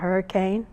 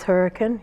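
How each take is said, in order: First: The name is said like the ordinary word. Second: The name is said in the local dialect form. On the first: This is how outsiders say it. The speaker calls it wrong. "It's not Hurricane" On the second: This is how the town's residents say it. The speaker calls it right. "it is Hurricane"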